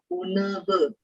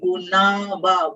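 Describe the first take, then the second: First: The vowels are said with a closed mouth. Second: The vowels are said with an open mouth. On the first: "So this is both closed mouth" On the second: "normally we put like guna va, both open mouth"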